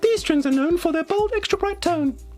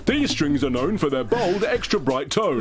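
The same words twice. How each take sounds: First: It is said in a put-on woman's voice. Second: It is said in a man's voice.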